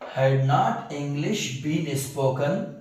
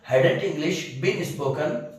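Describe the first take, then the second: First: Had not is said as two full words. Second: Had not is run together quickly as hadn't.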